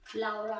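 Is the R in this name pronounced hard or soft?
soft. The R sound is soft and barely pronounced. "but here in the U K, when you say R is Laura"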